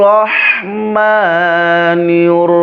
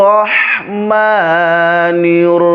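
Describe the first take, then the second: No difference in how they are said.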